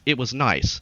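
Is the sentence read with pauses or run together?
run together. The words run together without any pause. The speaker calls it wrong. "they would read that sentence as"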